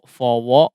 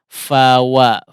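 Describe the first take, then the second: First: The lips round early, colouring the vowels toward o. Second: The lips stay neutral, keeping an open a vowel. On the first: The speaker calls it wrong. "Jangan keburu pengen mengucapkan huruf waw ya" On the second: The speaker calls it right. "dibiarkan di posisi normal si bibirnya"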